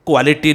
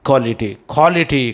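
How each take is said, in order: First: क्वालिटी as "kwality"; wrong pronunciation. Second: क्वालिटी as "kholity"; right pronunciation. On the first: Teacher showing what to avoid, क्वालिटी as "kwality". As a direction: KW glide in क्वालिटी. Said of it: "नहीं बोलना है". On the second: Teacher drilling the correct form, क्वालिटी as "kholity". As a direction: drop the W in क्वालिटी, KHO first. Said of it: "और आप बोलेंगे". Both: Shown as a demonstration.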